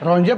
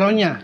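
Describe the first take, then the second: First: The middle consonant is a j sound. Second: The middle consonant is a y sound. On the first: "Ronja apa Ronya?" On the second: "Ronja apa Ronya?"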